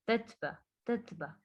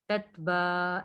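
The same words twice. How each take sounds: First: तत बा with a short, quickly released बा; short unstretched ending. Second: तत बा with the बा dragged long; wrongly stretched ending. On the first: Teacher shows students the right reading, short unstretched ending. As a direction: keep the vowel of बा brief and soft. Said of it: "ऐसे". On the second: Teacher shows the reading to avoid, wrongly stretched ending. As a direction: lengthen the final vowel of बा. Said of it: "ऐसे नहीं पढ़ना". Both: Shown as a demonstration.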